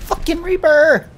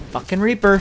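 First: Higher, louder furious curse; angry yell. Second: Said in the usual way. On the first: Real, not acted. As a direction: spit it out in anger. Angry at enemy player.

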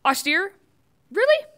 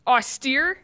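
First: Really leaps much higher and louder; mock outrage, can't believe the word; incredulous disbelief. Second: Incredulous question. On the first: Host mocking the Post's headline, incredulous and louder. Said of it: "He's like". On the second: Real, not acted. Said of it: "Couldn't have written serious".

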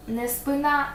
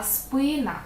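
First: Спина stressed on the final А; wrong stress. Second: Спина stressed on И; correct stress. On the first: Teacher shows the mistake to avoid. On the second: Teacher gives the correct stress. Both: Shown as a demonstration.

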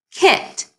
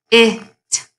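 First: Kit blended together, pitched up. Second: K-it sounded out slowly, short i; segmented kit. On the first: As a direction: blend it into one quick word kit. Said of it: "kit has the short I". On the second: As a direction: sound out k, then it. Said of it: "I have the word on the screen". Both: Shown as a demonstration.

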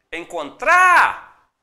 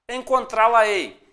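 First: "Encontrar" with TRÁ loud, high and very long; stress on TRÁ. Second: "Encontrá-la-ei" said whole, slowly, louder on TRÁ; whole word, emphatic. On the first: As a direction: call out "Encontrar", holding the last syllable. Teacher shows where the word ends. ("Encontrar" com o TRÁ bem alto e alongado) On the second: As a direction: announce "Encontrá-la-ei" slowly in one piece. Word said whole before its breakdown. ("Encontrá-la-ei" inteiro, devagar e enfático) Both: Shown as a demonstration.

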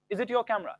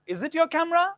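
First: Said in the usual way. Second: "Is it your camera?" higher and louder, rising; question tone. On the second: Shown as a demonstration. Teacher repeats the question with a high rising tune.

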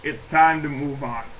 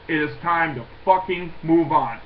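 First: Said in the usual way. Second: Each word spelled out, hitting "fucking move on"; emphatic repeat. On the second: Real, not acted. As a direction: lean hard on "fucking move on", fed up.

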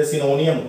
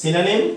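First: Synonym said as "si-NO-ni-yum"; students' mispronunciation. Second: Synonym said as "SI-na-nim"; correct pronunciation shown. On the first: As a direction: say synonym with a long o and an extra -iyum ending. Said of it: "ਇਸ ਨੂੰ ਕਈ ਬੱਚੇ ਜੋ synonym ਵੀ ਬੋਲ ਦਿੰਦੇ". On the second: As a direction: say synonym in three short syllables ending in -nim. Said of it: "ਜੇਕਰ ਸਹੀ ਉਚਾਰਨ ਦੀ ਗੱਲ ਕਰੀਏ". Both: Shown as a demonstration.

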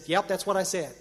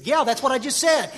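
First: Said in the usual way. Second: Higher, irritated retort. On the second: Retold or imitated. Pressed by a friend's repeated checking, irritated. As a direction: insist testily, as if jammed up. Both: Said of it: "Now I'm getting irritated".

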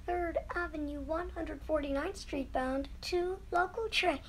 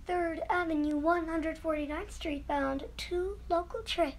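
Both takes have the same delivery.

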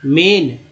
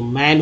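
First: "मेन" with a long e; wrong E vowel. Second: "मैन" with an open ae; correct open vowel. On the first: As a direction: say "मेन" like main, with ay. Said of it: "गलत दोस्तों". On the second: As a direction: say "मैन" with ae as in cat. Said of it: "ए उच्चारण होगा". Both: Shown as a demonstration.

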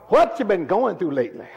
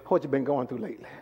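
First: Raised, pointed question stressing WHAT; insistent question. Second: Low, soft, quick aside; quiet question. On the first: Preacher pressing the congregation about recent troubles, insistent question. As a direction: press the question home with more force. Repeats the question more forcefully. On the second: Preacher asking about recent troubles, quiet question. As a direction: ask it softly and low. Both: Real, not acted.

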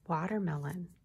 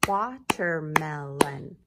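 First: Said in the usual way. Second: "Watermelon" loud and slow, four beats; clapped syllables. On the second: Shown as a demonstration. Teacher slowly claps syllables with the class, loud. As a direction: clap out "Watermelon" slowly beat by beat.

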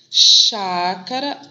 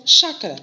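First: "Chácara" stretched out very slowly; drawn-out emphasis. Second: Said in the usual way. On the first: Shown as a demonstration. Teacher stressing the lowercase word for pupils, very slow. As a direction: lean on "Chácara" and draw every syllable out.

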